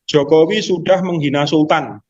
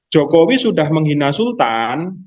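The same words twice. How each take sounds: First: It is said as a flat statement. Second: It is said as a question.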